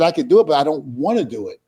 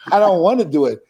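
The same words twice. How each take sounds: First: Said in the usual way. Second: The reluctance repeated through a laugh. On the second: Retold or imitated. [name] repeating his refusal to Bubba with a laugh. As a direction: laugh it out, half joking.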